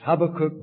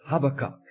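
First: It is pronounced the Scots and Hebrew way. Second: It is pronounced the way another speaker said it. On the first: This is how it is said in Scots and Hebrew. The speaker calls it right. "it's Habakkuk both in Scots and Hebrew" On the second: Someone else said it this way. The speaker calls it wrong. "our brother called it Habakkuk"

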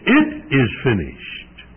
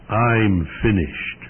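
First: It is cried out in a strong voice. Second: It is said weakly, barely getting out.

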